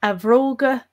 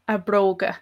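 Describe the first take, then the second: First: Bhróga as vróga, lenited, for his shoes. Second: Bróga with a hard b sound; bróga with b kept, for her shoes; plain b in bróga. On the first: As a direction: start bhróga with a v sound, not b. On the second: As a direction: start bróga with a clear b. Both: Shown as a demonstration. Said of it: "that's the only difference there".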